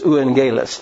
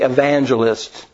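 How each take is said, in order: First: A u vowel follows the first vowel. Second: A v sound follows the first vowel. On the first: This is the original Greek form of the word. "But in Greek, it was euangelist" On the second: This is the English form of the word. "In English, we pronounce that U a V"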